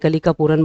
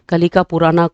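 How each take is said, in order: First: The name ends on the final consonant. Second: The name ends with an added final vowel. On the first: "बोलता है" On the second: "कोई कोई pronounce करता है"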